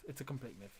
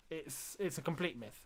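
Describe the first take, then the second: First: Much softer, lower resigned echo; trailing off in resignation; fading. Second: Said in the usual way. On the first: Real, not acted. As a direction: let it fall away to almost nothing. Fading repeat of the same remark.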